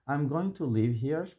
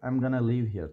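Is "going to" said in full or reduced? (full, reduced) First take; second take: full; reduced. First: Going to is said in full, every sound clear. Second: Going to is reduced to gonna, said fast.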